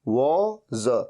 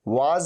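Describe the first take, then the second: First: The vowel sounds like a rounded 'aw'. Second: The vowel sounds like an open 'ah'. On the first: The speaker calls it right. "बोलना हमेशा सही है" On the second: The speaker calls it wrong. "वाज नहीं"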